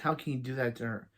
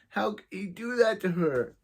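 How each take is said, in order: First: The voice stays steady without cracking. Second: The voice cracks partway through the sentence.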